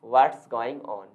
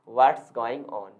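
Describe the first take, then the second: First: 'What is' is contracted into one syllable. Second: The same.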